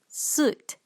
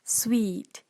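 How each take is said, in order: First: It is said with a Malaysian-style pronunciation. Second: It is said with a standard pronunciation. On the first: The speaker calls it wrong. "Malaysian calls this as suit" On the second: The speaker calls it right. "But the correct pronunciation for this word is sweet"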